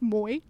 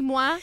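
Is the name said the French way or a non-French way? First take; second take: non-French; French. First: The name is said a non-French way. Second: The name is said the French way. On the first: This is how the man himself says it. The speaker calls it wrong. "but it's pronounced Moi" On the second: This is how a French speaker would expect it. The speaker calls it right. "it should be Moi if you've taken any French"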